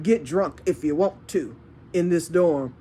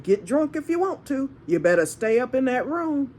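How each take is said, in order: First: Retold warning. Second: Higher-pitched, lilting mock warning; retold warning. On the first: Telling dorm drinkers what she allowed, a contained retold warning. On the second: Telling dorm drinkers to stay in that room, high-pitched retold warning. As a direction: lift the voice as you quote the warning.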